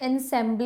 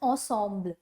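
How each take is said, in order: First: The word is said with English-like sounds. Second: The word is said with French-like sounds. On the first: The speaker calls it wrong. "इसको हम pronounce ऐसे नहीं करते ensemble" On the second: The speaker calls it right. "We pronounce it as ensemble"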